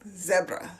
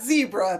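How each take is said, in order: First: It is said in a South African accent. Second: It is said in an American accent.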